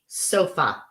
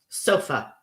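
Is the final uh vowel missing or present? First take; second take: present; present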